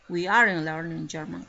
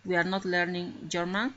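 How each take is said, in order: First: "aren't" as one joined word, louder; contracted form. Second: Said in the usual way. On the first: Shown as a demonstration. Teacher showing the class the short spoken form, louder. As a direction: squeeze "are not" into "aren't", said out loud. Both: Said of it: "Aquí está, ¿no?, la forma contractada".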